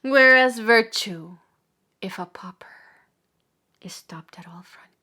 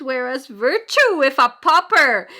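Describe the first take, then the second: First: Falling to hush. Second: Loud, high, rising outcry; impassioned declamation. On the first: Preacher lamenting virtue stopped at frontiers, fading into hush. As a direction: start strong, then drop almost to nothing. Second take, drops to a hush. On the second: Preacher contrasting virtue with sin, loud impassioned cry. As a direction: hurl it out from the pulpit. Preacher's first take, full force. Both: Acted.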